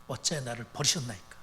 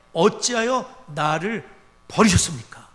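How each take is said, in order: First: Softer and lower, 어찌하여 sinking at the end; quiet, broken echo of the cry; quiet forsaken plea. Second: Loud, slow, with 어찌하여 drawn out; loud cry of abandonment; loud anguished cry. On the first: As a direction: let it fall almost to a murmur. Quoting Jesus on the cross. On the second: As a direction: cry out as the forsaken Son. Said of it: "예수님이 기도하시길". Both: Retold or imitated.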